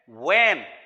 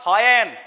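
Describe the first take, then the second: First: The h sound is silent at the start. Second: The h sound is clearly pronounced at the start. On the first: The speaker calls it right. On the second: The speaker calls it wrong. "It's not when"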